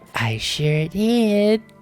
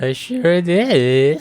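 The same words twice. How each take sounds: First: The voice sounds creepy. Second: The voice sounds plain, not creepy.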